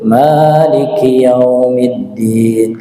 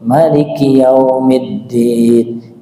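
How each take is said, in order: First: The first vowel of Maliki is long. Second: The first vowel of Maliki is short. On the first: "yang masyhur kita baca itu" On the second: "Kalau ada yang baca pendek"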